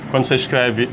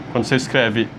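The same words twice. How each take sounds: The two takes are said the same way.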